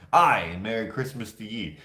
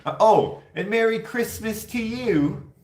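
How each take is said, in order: First: Lightly put-on Scottish greeting; a hint of Scottish lilt on "Aye" and "ye"; mock Scottish accent. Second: High, slow, loud cheerful "Oh"; a bright, drawn-out holiday greeting without any accent; plain greeting. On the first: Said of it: "Can you imagine?". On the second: Retold or imitated. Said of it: "Why wouldn't you be like".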